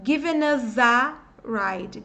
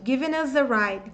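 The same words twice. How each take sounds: First: Given us a ride slowly, n and z linked into the vowels; slow linked drill; slow linking drill. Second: Given us a ride at normal pace, all linked; same phrase at natural speed; natural linked take. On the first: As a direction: link every word, slowly. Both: Shown as a demonstration. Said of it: "vai emendar".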